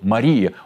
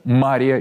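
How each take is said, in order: First: The stress is on the second syllable. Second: The stress is on the first syllable. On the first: It names the Most Pure Virgin Mother of God. "на второй – Мария" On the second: It names Mary of Egypt. "Ударение на первый слог"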